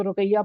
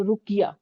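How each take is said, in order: First: रुकैया said with an "ai" sound, ru-kai-ya; common mispronunciation. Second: रुकिया said as ruk-iya, short i, no "ai"; corrected pronunciation. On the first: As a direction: cite the misreading रुकैया, ru-QAI-ya. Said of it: "कुछ लोग इसको रुकैया पढ़ते हैं". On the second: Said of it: "ये रुकैया नहीं है". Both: Shown as a demonstration.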